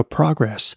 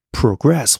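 First: Progress with the weight on pro, the gress part falling away; progress, stressed on pro; stress on the first syllable. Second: Progress said slowly, with the weight landing on gress; slow progress, stressed on gress; stress on the second syllable. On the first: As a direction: hit the start of progress, like the noun. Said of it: "重音在前". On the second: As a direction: lean on the end of progress, like the verb. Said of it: "重音在后". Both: Shown as a demonstration.

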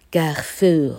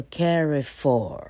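First: CARREFOUR said as French kar-FOOR; French pronunciation. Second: CARREFOUR as English CARRY-for, stress up front; English-style, first-syllable stress. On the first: Teacher contrasts it with the English reading, French pronunciation. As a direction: give CARREFOUR its French sound. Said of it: "法文的话念作". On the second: Teacher shows stress on first syllable, English-style reading. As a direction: slowly anglicize CARREFOUR, stressing CAR. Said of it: "重音在第一节". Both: Shown as a demonstration.

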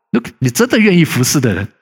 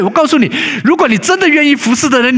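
First: Said in the usual way. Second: Pitched up and louder, stress on 如果; fervent preaching. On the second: Acted. Pastor challenges willing servants, in a raised, louder preaching voice. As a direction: preach it hard, the first time round. Preaching peak, repeated later plainly.

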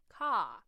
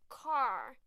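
First: British accent. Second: American accent. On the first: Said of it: "英式发音car". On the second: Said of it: "美式英文的车子car". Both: Shown as a demonstration.

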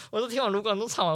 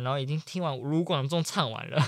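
First: 听 stressed higher, faster. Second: Said in the usual way. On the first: Real, not acted. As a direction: hit 听 and hurry on. (强调“听”，语速加快)

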